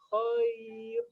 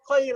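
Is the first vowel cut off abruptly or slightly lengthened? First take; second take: lengthened; abrupt. First: The vowel is slightly drawn out and soft. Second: The vowel glides abruptly into the next sound. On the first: The speaker calls it right. "tapi khair" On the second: The speaker calls it wrong. "nggak langsung khair"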